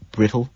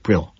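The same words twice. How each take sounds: First: "Brittle?" with a rising tune; supply "Brittle?" as a lifted question; questioning offer. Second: "Brittle." with a falling tune; shrugged concession. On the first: Colleague offers the missing word "Brittle?", rising questioningly. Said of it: "McDermott offers". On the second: Narrator concedes the word "Brittle.", falling and resigned. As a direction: let "Brittle." drop as a shrug. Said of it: "I shrug". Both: A narrator's reading.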